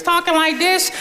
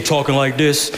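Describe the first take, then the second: First: Squeaky high imitation of a child's voice; high young voice. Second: Newly broken voice. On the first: Preacher teasing teens about last year's voices, high-pitched. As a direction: pitch it way up like a kid before the voice change. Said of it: "last year was talking like this". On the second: Retold or imitated. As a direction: drop the pitch like a voice that just changed. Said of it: "this year you're talking like this".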